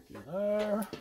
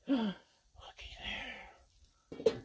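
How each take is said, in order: First: Said in the usual way. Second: Hushed whisper of wonder. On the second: Acted. Cook lifting the lid to show viewers, whispered. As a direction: breathe it like a secret reveal.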